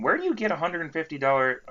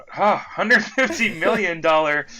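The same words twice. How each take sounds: First: Said in the usual way. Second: Slow, loud, stretched out in disbelief; can't believe the number; incredulous emphasis. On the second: Real, not acted. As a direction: hammer the fifty, amazed. Incredulous correction of huge amount.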